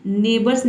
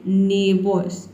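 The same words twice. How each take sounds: First: नेबर्स with the r and s spelled out; wrong way shown. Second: नेबर्स said slowly as nebos, no r; slow model reading. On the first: Teacher shows learners the wrong reading. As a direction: read नेबर्स letter by letter, the rejected way. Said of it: "नेबर्स नहीं पढ़ना है". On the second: Teacher gives learners the correct pronunciation slowly. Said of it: "आपको क्या पढ़ना है". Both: Shown as a demonstration.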